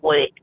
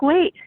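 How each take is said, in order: First: It is said rudely and curtly. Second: It is said softly and gently.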